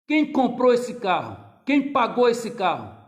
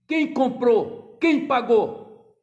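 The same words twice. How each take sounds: First: Indignant challenge. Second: Loud, very slow, each word pressed; indignant challenge. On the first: Father challenges son. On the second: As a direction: hammer the questions home. Preacher re-voices father. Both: Retold or imitated.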